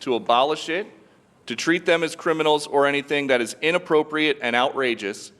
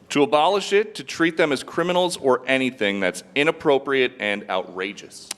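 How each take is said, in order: First: There is a pause in the middle. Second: It is read without a pause in the middle.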